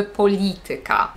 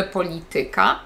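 First: "polityka" stressed on LI, falling after it; stress third from last. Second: "polityka" stressed on TY, rising; wrong penultimate stress. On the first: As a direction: hit LI in "polityka" and keep TY light. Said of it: "na trzeciej sylabie od końca". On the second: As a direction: put the accent on TY in "polityka". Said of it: "Więc nie mówimy". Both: Shown as a demonstration.

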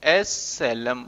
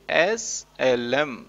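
First: Said in the usual way. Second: Drawn out slow and tender, SLM stretched letter by letter; said lovingly. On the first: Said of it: "इसको shortcut में प्यार से बोलूंगा मैं". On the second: Shown as a demonstration. Teacher has the class say SLM fondly, very slowly. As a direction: croon SLM very slowly like a pet name. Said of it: "बोलो एक बार प्यार से".

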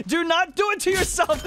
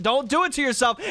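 First: Real excited shout, pitched up high; shouted plea. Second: Said in the usual way. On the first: Real, not acted. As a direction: Do not do it to yourself shouted much higher. Pleading with fleeing player.

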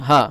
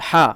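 First: হা pronounced from where the throat begins; HA from throat's start. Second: হা pronounced from the middle of the throat. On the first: Teacher contrasting the small ha, হা from the throat's start. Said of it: "মানে গলার শুরু থেকে". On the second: Teacher showing learners the big ha, হা from mid-throat. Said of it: "গলার মধ্যখান থেকে". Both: Shown as a demonstration.

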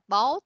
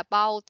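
First: "boat" said /bo/, no final t sound; correct pronunciation. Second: "boat" said /bowt/ with a hard final t; wrong pronunciation. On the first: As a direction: say "boat" with the end t dropped. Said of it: "Mình đọc là boat". (đọc "boat" đúng, không bật âm t cuối) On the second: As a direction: say "boat" with a clear t at the end. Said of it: "chứ không phải là boat". (đọc "boat" sai, bật rõ âm t cuối) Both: Shown as a demonstration.

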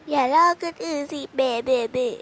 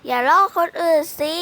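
First: Mocking imitation. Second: Scolding. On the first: Teasing friend mimics her scolding, mocking singsong imitation. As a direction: parrot her scolding back in a whiny mocking voice. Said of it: "ทำเสียงเรียนแบบซีน". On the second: Acted. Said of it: "อย่าทำเสียงนักเรียนนะ".

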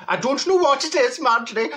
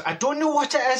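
First: High-pitched, badly wandering put-on accent; Neville's accent. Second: Said in the usual way. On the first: Confused passenger to the driver, in put-on accent. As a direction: overdo the friend's accent, pitched well up. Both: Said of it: "I'm not doing his accent".

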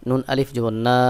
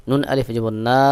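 No difference in how they are said.

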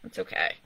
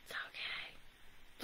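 First: Said in the usual way. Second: Whispered under the breath. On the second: Real, not acted. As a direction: breathe it out to yourself. Consoling himself after lost bet.

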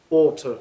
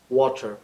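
First: Water in a British accent, ওয়াটার with no r sound. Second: Water in an American accent, ওয়াটার with a flapped t. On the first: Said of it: "যদি British স্টাইলে বলি". (British উচ্চারণে ওয়াটার) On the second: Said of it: "American স্টাইলে বলি". (American উচ্চারণে ওয়াটার) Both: Shown as a demonstration.

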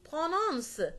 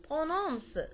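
No difference in how they are said.

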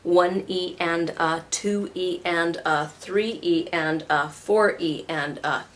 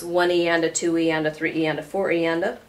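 First: Slow, even sixteenth count; "one E and a" counted slowly, every syllable separate; slower count. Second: Quick, running sixteenth count; counting "one E and a two E and a" fast in one breath. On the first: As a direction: spell out each "E and a" slowly. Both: Shown as a demonstration. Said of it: "I'll say that slower".

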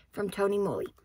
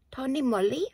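First: Said in the usual way. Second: "Tony Moly?" with a rising, question-like tune on Moly; puzzled rising "Tony Moly?"; odd questioning Tony Moly. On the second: Real, not acted. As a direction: say "Tony Moly?" as if unsure, lifting at the end. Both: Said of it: "I don't know why I said it like that".

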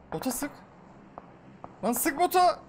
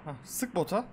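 First: Impatient yelled order to a teammate; urgent yell. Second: Said in the usual way. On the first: Real, not acted. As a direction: bark the order to shoot now. Urging teammate to shoot bot.

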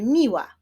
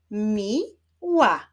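First: Said in the usual way. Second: "Mi-ła" as two separated syllables; teacher clapping out "Mi-ła", gap after Mi. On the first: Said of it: "Wyklaszczmy sylaby w wyrazie". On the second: Shown as a demonstration. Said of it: "Wyklaszczmy sylaby". („Mi-ła” z podziałem na sylaby)

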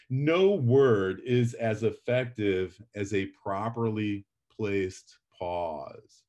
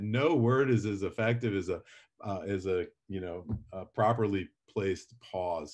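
First: Slow, weighty delivery with a pause before placed pause; slow quoted line. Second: Said in the usual way. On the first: Shown as a demonstration. Teacher quoting Mark Twain to the class, slow and weighty. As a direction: read it slowly, pausing before placed pause. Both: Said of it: "this is a writer saying that".

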